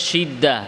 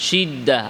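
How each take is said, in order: Both takes have the same delivery.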